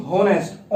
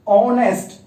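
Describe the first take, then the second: First: "होनेस्ट" with the H sounded; the mistaken reading "होनेस्ट", h not silent; wrong H pronounced. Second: "ऑनेस्ट" starting on the vowel, louder and higher; emphatic "ऑनेस्ट", opening on a clear "o"; silent H. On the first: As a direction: say "होनेस्ट" with an audible h at the start. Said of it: "ना कि होनेस्ट". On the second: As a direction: say "ऑनेस्ट" with no h sound. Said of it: "पढ़ते वक्त क्या बोलते हैं". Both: Shown as a demonstration.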